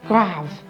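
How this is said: It is said with a French accent.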